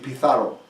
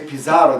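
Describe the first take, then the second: First: The z is said like a th. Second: The z is said like an s. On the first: "they turn it into a T H" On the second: "they wouldn't say Pizarro"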